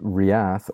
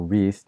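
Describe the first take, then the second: First: The name is said with two syllables. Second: The name is said with one syllable. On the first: The speaker calls it right. "I like to say Riath, as in two syllables" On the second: The speaker calls it wrong. "Wreath just sounds like wreath"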